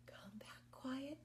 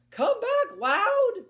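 First: Whispered, much softer; hushed whisper. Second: Loud, much higher shout; loud high call. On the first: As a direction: whisper the call back. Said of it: "One named Quiet". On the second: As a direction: shout them back home. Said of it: "the other named Loud". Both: Shown as a demonstration.

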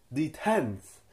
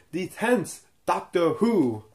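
First: Said in the usual way. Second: Tenth said higher, louder and slow, firmly correcting; firmly fix it: the tenth Doctor Who, slow and emphatic; corrective stress on tenth. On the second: Real, not acted. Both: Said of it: "no, not the eleventh".

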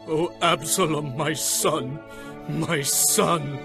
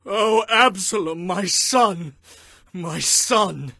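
First: Subdued, grieving moan; higher-voiced but spent lament; weeping. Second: High, full-voiced wail; anguished father's lament; crying out in grief.

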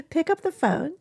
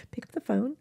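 First: Higher laughing push to call; laughing repeat. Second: Said in the usual way. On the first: Shown as a demonstration. Urging viewers to call friends, through a laugh. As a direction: laugh as you urge them again. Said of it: "There you go".

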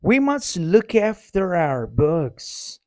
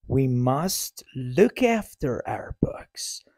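First: Said in the usual way. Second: Whispered model sentence. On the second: Shown as a demonstration. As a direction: whisper it, slowly. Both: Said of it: "same words, whispered".

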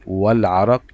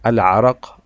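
First: "والعرق" joined as wal-araq; silent alif. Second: "العرق" said alone, loudly, as al-araq; initial alif sounded. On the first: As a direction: run wa straight into the l of "والعرق". (نطق «والعرق» موصولة دون ألف) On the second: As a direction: open "العرق" on a clear a. (نطق «العرق» منفردة بألف منطوقة) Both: Shown as a demonstration. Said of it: "الألف لم تظهر معي في النطق".

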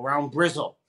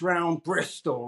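First: "Brizzle" in a Bristol burr, lower; Bristol pronounced Brizzle. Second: Said in the usual way. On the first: Retold or imitated. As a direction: say "Brizzle" with a local Bristol L ending. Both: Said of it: "round Brizzle".

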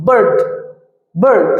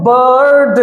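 First: "বার্ড" short and low, in one beat; short single syllable. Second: "বার্ড" with a long drawn-out vowel, বা-আ-র্ড; exaggeratedly elongated "বার্ড"; overstretched word. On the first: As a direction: say "বার্ড" quickly closed, without stretching the vowel. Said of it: "আমরা কিভাবে উচ্চারণ করবো?". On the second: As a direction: stretch "বার্ড" as a wrong example. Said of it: "এইভাবে কিন্তু উচ্চারণ করবো না আমরা". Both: Shown as a demonstration.

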